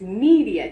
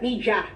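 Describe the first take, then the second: First: The middle consonant is a clear D sound. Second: The middle consonant sounds like a J. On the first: The speaker calls it right. "It's letter D" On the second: The speaker calls it wrong. "It's not J"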